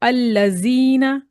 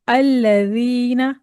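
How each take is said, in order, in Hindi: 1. बीच का व्यंजन कड़ा, गूंजता हुआ 'z' है। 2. बीच का व्यंजन नरम 'th' जैसी ध्वनि है। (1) "ये वाला साउंड जीना कह दिया तो ये आप गलती कर देंगे" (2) "नरमी से पढ़ेंगे"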